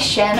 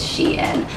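First: The name is said like 'shin'. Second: The name is said like 'shein'. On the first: "I was saying like Shin or something" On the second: "I think that's how you pronounce it, is Shein"

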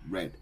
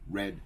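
First: The vowel is short, like in 'red'. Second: The vowel is short, like in 'red'.

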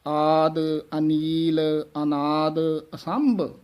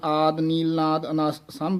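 First: The initial vowels of every word are pronounced. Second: The initial vowels of the later words are dropped. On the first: The speaker calls it right. "ਸ਼ੁੱਧ ਬੋਲਨੇ ਹਨ ਚਾਰੇ" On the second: The speaker calls it wrong. "ਇਸ ਤਰ੍ਹਾਂ ਬੋਲ ਜਾਂਦੇ ਹਨ"

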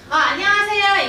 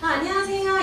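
First: The voice is pushed from the belly, projected. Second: The voice is relaxed, without belly support. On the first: It is the way to address an audience. "배에다 힘 주고" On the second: It is the way to chat with friends. "안 주고"

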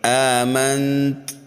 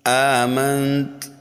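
No difference in how they are said.

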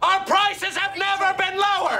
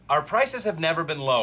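First: It is said loudly, with a lot of energy. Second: It is said quietly, without much energy.

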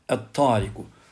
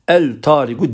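First: The L is silent and the T is doubled. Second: The L is pronounced before a single T. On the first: The speaker calls it right. "Tı uzatıyor" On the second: The speaker calls it wrong. "el-tariku demiyoruz"

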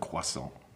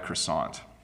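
First: The word has a French-style pronunciation. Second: The word has an English-style pronunciation. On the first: "instead of croissant" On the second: "most English speakers say croissant"

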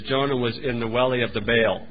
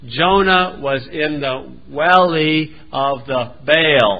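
First: It is said at a normal pace. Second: It is said very slowly.

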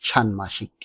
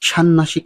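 First: The middle 'm' sound is clearly pronounced. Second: The middle 'm' becomes a doubled 'n' sound. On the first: The speaker calls it right. "শুদ্ধ উচ্চারণ ষান্মাসিক" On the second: The speaker calls it wrong. "ষান্মাসিক নয়"

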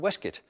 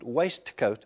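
First: The word is clipped, with letters left unsounded. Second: Every written letter in the word is sounded. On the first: "those clipped pronunciations" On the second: "spoken with all the written letters sounded"

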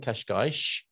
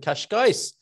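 First: The word ends with a sh sound. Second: The word ends with a plain s sound.

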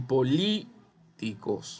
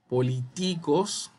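First: The stress is on the syllable li. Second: The stress is not on the syllable li. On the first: The speaker calls it right. "suena bien, por ende la li es la fuerza" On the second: The speaker calls it wrong. "suena horrible"

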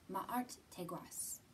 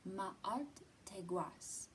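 First: It is said at normal speed. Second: It is said a little more slowly.

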